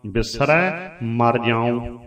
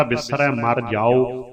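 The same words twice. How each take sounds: First: Slow, with ਜਾਉ ending nasalised as ਜਾਉਂ; correct nasal reading. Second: Slow, ਜਾਓ with an open oral ending, no nasal; wrong oral reading. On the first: Teacher shows the first-person reading: ਜਾਉ nasalised, slow. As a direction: say ਜਾਉ slowly with a nasal close. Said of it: "ਨਾਸਕੀ ਉਚਾਰਨ ਕਰਨਾ ਜ਼ਰੂਰੀ". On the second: Teacher demonstrates the mistaken reading: ਜਾਓ without nasal. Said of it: "ਫਿਰ ਭਾਵ ਵੀ ਤੁਸੀਂ ਮਰ ਜਾਓ". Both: Shown as a demonstration.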